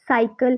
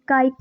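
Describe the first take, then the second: First: The word begins with a soft s sound. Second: The word begins with a hard k sound. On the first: The speaker calls it right. "सा की" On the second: The speaker calls it wrong. "का की नहीं निकलेगी"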